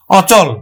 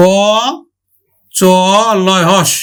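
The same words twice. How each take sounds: First: Said in the usual way. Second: অচল spelled very slowly, ô... chô... lô, then হস; open-vowel pronunciation. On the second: Shown as a demonstration. Teacher breaks the word down for students, অচল drawn out sound by sound. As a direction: hold each open ô in অচল, with a gap between sounds. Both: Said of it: "বিবৃত উচ্চারণ হবে".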